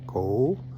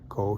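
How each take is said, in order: First: The vowel in ko is long. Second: The vowel in ko is short. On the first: "he said ko" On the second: "I said ko"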